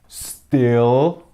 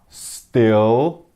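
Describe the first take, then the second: The two takes are said the same way.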